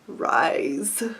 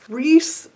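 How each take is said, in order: First: The name sounds like the word 'rise'. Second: The name does not sound like 'rise'.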